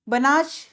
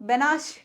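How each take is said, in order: No difference in how they are said.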